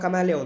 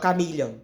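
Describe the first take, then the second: First: The middle is said as 'ma-la'. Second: The middle is said as 'mi-lhi'. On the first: "Ele não fala camaleão" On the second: "Ele fala camilhão"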